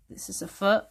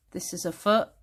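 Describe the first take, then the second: No difference in how they are said.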